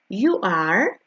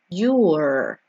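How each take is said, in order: First: Both words are said fully and separately. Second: The two words are joined into one syllable.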